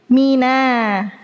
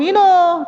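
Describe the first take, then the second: First: MINA with a thin n and open "na"; correct light nun. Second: MINO with a heavy rounded "no"; wrong thickened nun. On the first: Teacher correcting students, light clear nun. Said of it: "Bukan mino, tapi". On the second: Teacher correcting students, wrong heavy nun. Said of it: "Bukan mino, tapi mina". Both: Shown as a demonstration.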